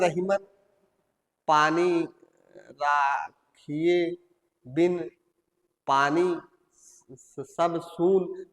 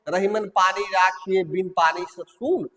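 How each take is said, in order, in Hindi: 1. यह रुक-रुक कर, टुकड़ों में पढ़ी गई है। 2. यह लय में बिना किसी रुकावट के धारा प्रवाह में पढ़ी गई है। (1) "ये धारा प्रवाह नहीं कहा जाएगा" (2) "अब आप इसको सुरलय में पढ़ दिए"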